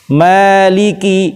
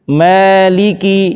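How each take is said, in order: Both takes have the same delivery.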